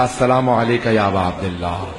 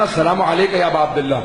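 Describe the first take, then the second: First: Trembling greeting. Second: Said in the usual way. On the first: Retold or imitated. Exhausted son greeting the Imam's shrine with a mild tremble. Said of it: "کانپتا ہوا میں نے کہا". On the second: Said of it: "جیسے میں نے کہا نا".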